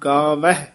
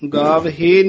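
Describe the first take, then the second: First: The word ends short, without a long 'e' vowel. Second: The word ends with a long 'e' vowel. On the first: The speaker calls it right. "ਗਾਵਹਿ ਉਚਾਰਨ ਕਰਨਾ" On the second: The speaker calls it wrong. "ਗਾਵਹੇ ਨੀ ਕਹਿਣਾ, ਗਾਵਹੇ ਕਵਾਂਗੇ ਤਾਂ ਹਾਹੇ ਦੇ ਲਾਂ ਲੱਗ ਜੇਗੀ"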